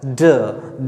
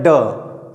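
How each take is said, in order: First: ड softened, tongue supported by the teeth; soft sound. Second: ड as a hard Hindi retroflex d; hard sound. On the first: Teacher shows the English sound to students, soft pronunciation of ड. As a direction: say ड softly as English d. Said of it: "soft करके बोला जाता है". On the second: Teacher shows the Hindi letter, hard pronunciation of ड. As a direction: hit ड hard, tongue curled back. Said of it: "hard करके". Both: Shown as a demonstration.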